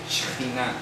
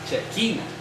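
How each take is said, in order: First: It is said in the stated form 'Shejinah'. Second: It is said in the common local form 'Chequina'. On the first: This is how it is properly pronounced. "Así se pronuncia" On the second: This is how people here say it. "Aquí dicen Chequina"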